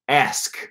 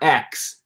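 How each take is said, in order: First: The word sounds like 'ask', with s before k. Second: The word sounds like 'axe', with k before s. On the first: This is the standard pronunciation. "It's not X, it's ask" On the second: "pronounce the word ask like a wood chopping axe"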